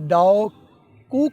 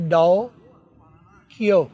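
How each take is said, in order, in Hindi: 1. दूसरा अक्षर एक साधारण 'koo' ध्वनि है। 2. दूसरे अक्षर में 'kyoo' ग्लाइड ध्वनि है। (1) "डाओ कू की बजाय" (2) "हम इसको बोलेंगे डाओ कियो"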